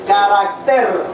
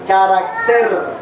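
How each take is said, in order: Both takes have the same delivery.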